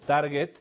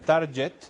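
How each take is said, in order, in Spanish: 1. La g es una g dura. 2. La g es una g suave. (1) "target se pronuncia con G de gato" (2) "Mucha gente lo pronuncia target y está mal pronunciado"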